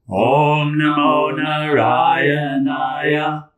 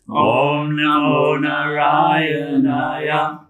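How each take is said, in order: First: It is spoken in a full, audible voice. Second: It is spoken in a full, audible voice.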